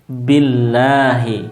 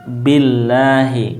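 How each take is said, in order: No difference in how they are said.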